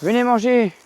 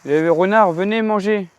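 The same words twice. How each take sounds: First: Put-on calling kids to dinner. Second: High sing-song call; calling kids to dinner. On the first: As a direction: call out to them from afar. (appel chantant pour le dîner) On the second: Acted. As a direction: call them in to eat. (appel pour venir manger) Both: Calling foxes to come eat.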